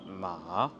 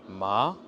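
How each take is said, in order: First: It has the hesitant-sounding third tone. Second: It has the surprised-sounding second tone. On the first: "l'émotion de l'hésitation" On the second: "Le deuxième ton, ça va être l'étonnement"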